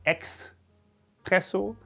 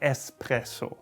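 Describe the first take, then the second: First: It begins with an 'ex' sound, like express. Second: It begins with a plain 'ess' sound. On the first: The speaker calls it wrong. "Like it's an express or something" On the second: The speaker calls it right. "The correct pronunciation here would be der Espresso"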